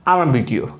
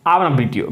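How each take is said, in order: No difference in how they are said.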